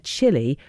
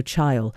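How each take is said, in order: First: "chili" said as CHILL-ee; usual pronunciation. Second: "chile" rhyming with aisle; mispronounced like aisle. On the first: Reading a listener's school story, "chili" said as CHILL-ee. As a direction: say "chili" with a short i, two syllables. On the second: Retelling a pupil's classroom slip, "chile" said to rhyme with aisle. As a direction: say "chile" as one syllable, CHILE like "while". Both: Retold or imitated. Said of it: "I pronounced it like aisle".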